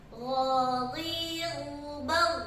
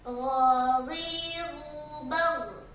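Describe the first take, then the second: No difference in how they are said.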